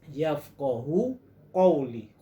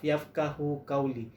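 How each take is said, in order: First: The q sounds are heavy and deep in the throat. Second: The q sounds are light, like a plain k. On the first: The speaker calls it right. "Sepatutnya ialah ... Huruf qaf. Tebal bunyi dia" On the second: The speaker calls it wrong. "Kenapa guna huruf kaf? ... Itu salah sebenarnya"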